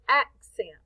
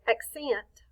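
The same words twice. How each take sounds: First: The stress is on the first syllable. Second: The stress is on the second syllable. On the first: The speaker calls it right. "we say accent. We say the act a little louder, longer, and higher" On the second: The speaker calls it wrong. "we don't say accent"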